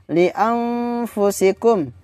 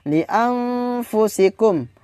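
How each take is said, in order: The two takes are said the same way.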